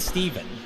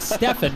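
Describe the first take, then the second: First: The name has a v sound in the middle. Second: The name has an f sound in the middle. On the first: The speaker calls it right. "rather than" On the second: The speaker calls it wrong. "always seem to pronounce my name wrong"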